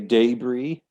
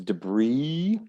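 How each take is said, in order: First: It is said in a UK English accent. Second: It is said in a North American accent. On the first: "U K English would say debris" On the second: "And in North American English, it's debris"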